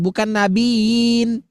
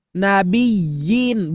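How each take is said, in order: First: Nabiyin slurred into nabin, slow; wrong nabiyin. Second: Nabiyin with a clear doubled y; correct nabiyin. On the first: Teacher shows the wrong nabiyin. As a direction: nabiyin said without the doubled y. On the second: Teacher gives the right nabiyin. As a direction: say nabiyin pressing the yi. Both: Shown as a demonstration.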